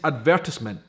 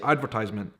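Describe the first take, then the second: First: It is said in a British way. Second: It is said in an American way. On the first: "another way it is said here is advertisement" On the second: "You would say advertisement"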